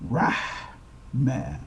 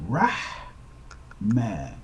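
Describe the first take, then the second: No difference in how they are said.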